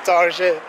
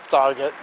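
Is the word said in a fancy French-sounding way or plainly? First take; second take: fancy; plain. First: The word sounds French, ending softly in 'zhay'. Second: The word is said plainly, ending in a 't'.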